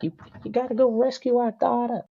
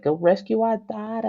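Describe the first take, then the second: First: Very high-pitched put-on Eskimo accent; hammed-up wife in a joke Eskimo accent; high, sustained mock Eskimo accent. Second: High-pitched mock New York Italian wife; hammed-up New York accent, nagging wife. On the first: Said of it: "that's my Eskimo accent". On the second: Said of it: "I'm gonna do a New York accent".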